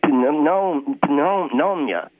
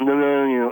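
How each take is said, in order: First: The word is articulated clearly and carefully. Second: The word is slurred and mumbled carelessly. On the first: The speaker calls it right. "I like to say pneumonia" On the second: The speaker calls it wrong. "slide it off their mouth like it's just garbage going off a plate into a sink"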